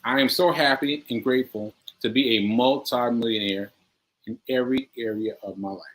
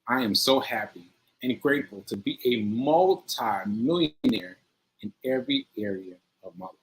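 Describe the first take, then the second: First: It is said plainly, without much feeling. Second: It is said with strong, heartfelt emotion.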